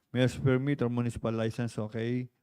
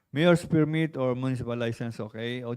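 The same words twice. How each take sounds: No difference in how they are said.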